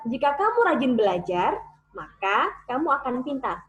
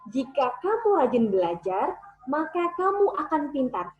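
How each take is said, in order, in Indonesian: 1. Ada jeda tepat setelah 'maka'. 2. Tidak ada jeda tepat setelah 'maka'. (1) "Biasanya teman-teman akan baca seperti ini" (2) "cara membaca yang benar adalah seperti ini. ... Maka itu nggak perlu jeda lagi"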